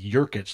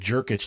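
First: The name begins with a Y sound. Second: The name begins with a J sound. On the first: The speaker calls it wrong. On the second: The speaker calls it right.

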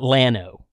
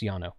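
First: The word begins with an L sound. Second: The word begins with a Y sound. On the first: The speaker calls it wrong. "It's not Llano" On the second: The speaker calls it right. "double L in Spanish is pronounced like a Y"

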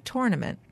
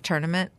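First: The first syllable sounds like 'tour'. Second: The first syllable sounds like 'turn'. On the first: "I like to call it a tournament" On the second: "Not a tournament"

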